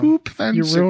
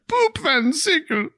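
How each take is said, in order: First: It is said in the speaker's ordinary accent. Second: It is said in a put-on German accent.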